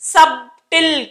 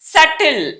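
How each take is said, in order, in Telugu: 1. "subtle" పదాన్ని b శబ్దంతో పలుకుతారు. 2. "subtle" పదాన్ని b శబ్దం లేకుండా పలుకుతారు. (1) "సబ్టిల్ కాదు, సబ్ అనకూడదు"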